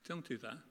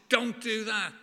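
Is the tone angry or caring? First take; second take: caring; angry. First: It is said in a gentle, caring tone. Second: It is said in an angry, stern tone. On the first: The rule is given out of love and protection. The speaker calls it right. "as a loving, caring God, as any parent would, saying" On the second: The rule is given out of anger. The speaker calls it wrong. "this angry God saying"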